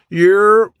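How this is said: It sounds like a brief, knowing acknowledgment.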